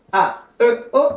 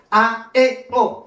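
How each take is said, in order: First: "A, E, O" with a rounded "eu" for E; wrong French-style E. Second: "A, E, O" with E as a clear "é"; Spanish E. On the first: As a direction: say the middle vowel of "A, E, O" as French "eu". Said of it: "Pas de E en espagnol". (« A, E, O » avec un E fautif, dit « eu ») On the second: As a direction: say the middle vowel of "A, E, O" unrounded, as in Spanish. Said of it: "Mais en espagnol, c'est". (« A, E, O » avec un E espagnol, dit « é ») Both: Shown as a demonstration.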